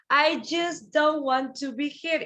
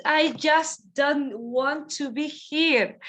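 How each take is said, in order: First: "dont" stressed; stress on don't. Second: "I just don't want to be here" said slowly; slow model. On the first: Teacher repeats the line for students, stressing "dont". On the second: Teacher models the sentence slowly for the class. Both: Shown as a demonstration.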